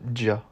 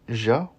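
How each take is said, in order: First: The consonant is a d followed by j. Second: The consonant is a plain j sound. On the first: "la combinaison du son d et j" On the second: "le son ja"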